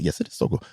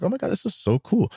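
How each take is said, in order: First: Quieter, low-key acted comeback; cool reply. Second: High, swooping mock lady voice; gushing lady. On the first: Rider answering the admiring lady, understated cool reply. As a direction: play it cool, softer than her. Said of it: "And I was like". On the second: Lady admiring the scooter's seat compartment, gushing high voice. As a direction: imitate a lady gushing over it. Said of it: "And she was like".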